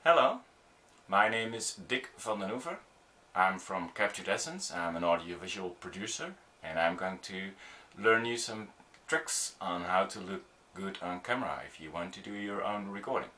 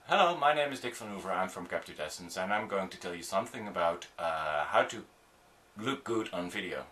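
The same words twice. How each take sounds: First: Measured self-introduction with clear pauses between phrases; slower introduction. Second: Too fast. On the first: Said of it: "this would be better". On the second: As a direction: rattle off your introduction without breaks. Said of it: "That's too fast". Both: Shown as a demonstration.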